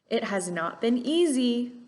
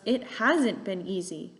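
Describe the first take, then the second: First: The word not is said in full. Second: The word not is contracted onto has. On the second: "these contractions"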